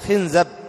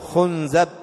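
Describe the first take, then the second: First: The vowels are i then a. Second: The vowels are u then a. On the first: The speaker calls it right. "بكسر الخاء وفتح الزاي" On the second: The speaker calls it wrong. "ويجوز ضمها"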